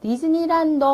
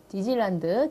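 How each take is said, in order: First: 디즈니랜드 called out high and loud; stressed high and loud. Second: Said in the usual way. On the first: Shown as a demonstration. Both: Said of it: "이제 친구는요".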